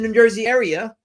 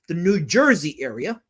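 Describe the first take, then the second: First: The phrase is said quickly and slightly mumbled. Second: The phrase is said slowly and clearly. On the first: The speaker calls it wrong. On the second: The speaker calls it right.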